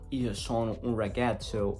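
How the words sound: It is said with an English-speaker accent.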